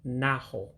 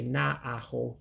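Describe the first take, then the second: First: The two a vowels merge into one. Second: The two a vowels are said separately. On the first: The speaker calls it right. "You run the two A's together" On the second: The speaker calls it wrong. "you don't say na aho"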